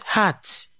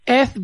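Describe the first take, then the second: First: The word starts with an added h sound. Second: The word starts without any h sound.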